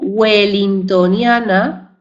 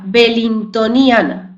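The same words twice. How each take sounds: First: The word begins with a 'w' sound. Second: The word begins with a 'b' sound. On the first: The word keeps its British origin. "tendría el sonido U" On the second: The word is adapted to Spanish. "con V y no con W"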